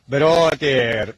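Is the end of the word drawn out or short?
drawn out. The final syllable is stretched out longer. This is how English speakers supposedly say it. "اونا کلماتش آخرش یه خورده میکشن"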